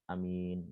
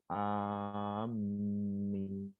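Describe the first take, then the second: First: The vowels are kept short. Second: The m sound is doubled. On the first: "Ada yang hanya pendek" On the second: "Ada juga yang pakai tasdid"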